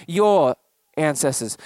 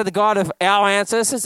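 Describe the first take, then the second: First: "your" leaned on, slow and lower; slow down and press "your" in "your ancestors"; stress on your. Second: Said in the usual way. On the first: Shown as a demonstration. Pastor pointing out Moses' word choice, stressing "your". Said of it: "Notice how he doesn't say the God of our ancestors". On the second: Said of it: "Notice how he doesn't say".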